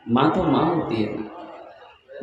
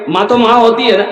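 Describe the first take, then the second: First: Much softer, lower and very slow; tender, drawn out. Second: Said in the usual way. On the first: Shown as a demonstration. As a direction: linger on माँ तो माँ होती है ना as a tender sigh. (धीमे, कोमल, खिंचे स्वर में)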